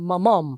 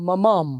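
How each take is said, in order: No difference in how they are said.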